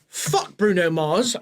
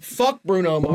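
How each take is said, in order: First: It is said in a put-on British accent. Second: It is said in the speaker's natural accent.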